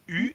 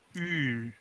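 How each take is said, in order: First: The vowel is short. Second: The vowel is held longer.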